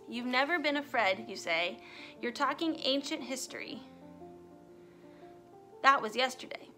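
The intonation sounds awkward and poorly placed. The speaker calls it wrong.

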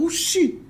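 The word is said in a happy, cheerful tone. The speaker is pleased about something. "Quando você tá feliz com alguma coisa, você fala"

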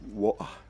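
It is said in a British accent. The speaker calls it right. "in England they saying water"

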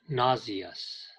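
The word is said with a British pronunciation. "the British, 英国人, pronounce it nauseous"

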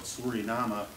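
The name is said with a Dutch pronunciation.

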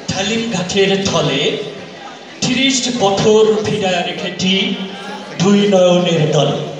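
The Bengali is spoken with an English accent. "এবার আসছে একজন ব্রিটিশ নাগরিক"

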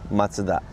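Mazda is said the Japanese way.

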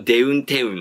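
The syllables use an 'eu' vowel sound.

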